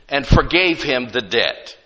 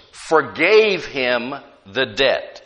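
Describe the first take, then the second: First: Said in the usual way. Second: Forgave him the debt drawn out, "forgave" leaned on; slow it right down and press "forgave"; slow, weighted reading. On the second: Shown as a demonstration. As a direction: dwell on each word so it sinks in.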